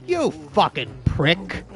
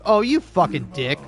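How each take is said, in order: First: "prick" savoured, slower and with a changed voice; relish the insult. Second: Said in the usual way. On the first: Shown as a demonstration. Showing a friend which insult is more fun, savouring "prick". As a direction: roll "You fucking prick" out slowly, enjoying "prick". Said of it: "prick is so fun". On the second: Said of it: "prick is so much more fun to say than dick".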